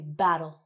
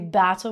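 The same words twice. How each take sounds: First: The middle consonant sounds like a soft D. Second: The middle consonant is a clear T sound. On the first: The speaker calls it right. "we say battle" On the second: The speaker calls it wrong. "We don't say battle"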